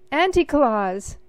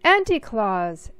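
First: Higher, much louder joyful shout. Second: Louder call with a falling end; shouting again. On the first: Sophie spotting her aunt on stage, shouting with joy. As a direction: call her name out loud in delight. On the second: Sophie calling her aunt a second time, louder. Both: A narrator's reading. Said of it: "Sophie shouted".

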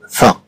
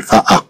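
First: "فا" said in one go; "فا" as one joined syllable. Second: "فا أ" broken into two sounds; "فا أ" with a break before the second a; split syllable. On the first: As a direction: blend f and a into a single "فا". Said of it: "لأنها غتنطق دفعة واحدة". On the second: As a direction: separate the vowel, "فا", then "أ". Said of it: "لا نقول فا أ". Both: Shown as a demonstration.

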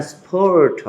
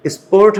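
First: স্পোর্ট with a puff after the p; alternative pronunciation option. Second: স্পোর্ট with an unaspirated p; first pronunciation option. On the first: Teacher posing a choice to confused learners, aspirated p. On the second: Teacher posing a choice to confused learners, plain p. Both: Shown as a demonstration. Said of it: "you are confused enough".

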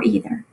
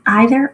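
First: "either" as EE-ther; "either" with a long E first; long-E pronunciation. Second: "either" as EYE-ther; "either" with a long I first; long-I pronunciation. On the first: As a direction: say "either" beginning like "eat". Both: Shown as a demonstration. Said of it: "two ways people, um, pronounce that word".

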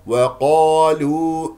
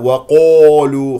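First: Slow وقالوا with light W and heavy open qa; correct unrounded qa. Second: Loud, slow وقالوا with the qa rounded towards qo; wrongly rounded lips. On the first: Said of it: "خطأ، وقا". (وقالوا بواو مرققة وقاف مفتوحة) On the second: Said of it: "ولا تكور الشفتين". (وقالوا بتكوير الشفتين خطأً) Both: Shown as a demonstration.

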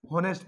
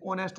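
First: हॉनेस्ट with a sounded H; हॉनेस्ट beginning with an audible H; mistaken pronunciation. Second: ऑनेस्ट starting straight on the O vowel; ऑनेस्ट with no H sound; silent H. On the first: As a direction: say the h in हॉनेस्ट, as some people misread it. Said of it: "इसमें भी एस silence रहेगा". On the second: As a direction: leave the h unsaid at the start of ऑनेस्ट. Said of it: "एस silence होने". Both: Shown as a demonstration.

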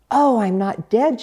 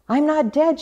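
First: Higher, louder-starting thought to oneself; a realization voiced to oneself; thinking to herself. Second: High, excited duck exclamation rising at the end; quacking duck. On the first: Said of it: "she thought to herself". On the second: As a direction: quack it out with delight. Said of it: "she quacked". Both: A narrator's reading.

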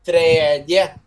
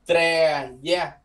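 First: Tre da said louder, d unvoiced; "Tre da" firm, the d left silent; silent d demo. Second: Tre da with the d silent; silent d demo. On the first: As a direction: stress "Tre da", drop the d. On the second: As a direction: say "Tre da" without sounding the d. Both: Shown as a demonstration. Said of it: "Âm D câm nha".

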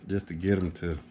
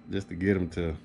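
The two takes are said the same way.

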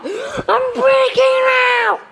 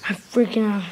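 First: High, slow, stretched-out panicked shout; drawn-out high scream of I'm freaking out; panicked yell. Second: Said in the usual way. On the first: Real, not acted. Building panic peaks.

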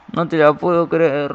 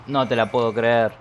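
First: Outraged disbelief. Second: Said in the usual way. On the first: Real, not acted. Goalie saves with special power.

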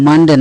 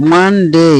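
First: "মানডে" short, ending in de; wrong pronunciation. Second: "মানডে" drawn out as man-dey; corrected pronunciation. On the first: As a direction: say "মানডে" quickly, no glide at the end. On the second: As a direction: stretch "মানডে" into man-day. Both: Shown as a demonstration. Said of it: "মানডে না".

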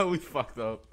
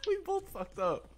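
First: Said in the usual way. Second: Laughing. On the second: Real, not acted. Both failed jump, laughing.

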